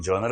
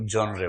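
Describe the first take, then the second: First: जॉनर said as "jonar" with two syllables; first way. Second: जॉनरे said as "jonre" with a final e; जॉनरे as "jonre", ending in an e sound; second way. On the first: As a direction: say जॉनर as jaw-nur. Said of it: "कुछ लोग जॉनर बोलते हैं". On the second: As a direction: say जॉनरे as jon-ray. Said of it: "कुछ जॉनरे बोलते हैं". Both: Shown as a demonstration.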